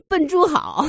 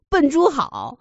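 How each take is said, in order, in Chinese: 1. 这是按中文式的音节来说的。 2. 这是按中文式的音节来说的。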